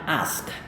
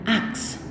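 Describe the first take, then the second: First: The s sound comes before the k sound. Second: The k sound comes before the s sound. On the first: The speaker calls it right. "Tapi ini adalah ask" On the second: The speaker calls it wrong. "Mereka melafalkannya dengan ask"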